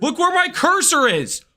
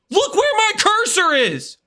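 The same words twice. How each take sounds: First: Higher, exasperated pleading. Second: Higher, stress on where, exasperated; exasperated much higher. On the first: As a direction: look where my cursor is, pleading. Exasperated insisting. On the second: Exasperated insisting louder. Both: Real, not acted.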